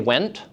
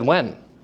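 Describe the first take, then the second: First: The word ends with a clear T sound. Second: The word is reduced, with no T sound. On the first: "Did I say went?" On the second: "I said when"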